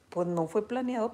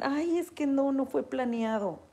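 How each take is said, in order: First: Said in the usual way. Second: Mock whiny excuse, pitched higher; patient excusing herself to the doctor, mock whiny. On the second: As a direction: whine it like a caught-out patient. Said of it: "Cuando dicen".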